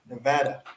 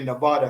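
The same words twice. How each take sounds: First: It is said the Nevada local way. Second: It is said the East Coast way.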